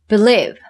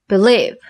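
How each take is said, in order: No difference in how they are said.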